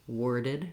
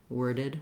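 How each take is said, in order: The two takes are said the same way.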